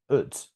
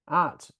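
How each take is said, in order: First: The word is said with a weak, reduced vowel. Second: The word is said with a full vowel.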